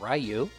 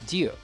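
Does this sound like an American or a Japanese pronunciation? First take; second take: American; Japanese. First: It is said with an American English pronunciation. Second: It is said imitating a Japanese pronunciation. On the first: This is how kids in the States said it. "When I was a kid, we would say Ryu" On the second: This is close to how it is said in Japan. "the closest way that I can pronounce his name to the way they would pronounce it in Japan"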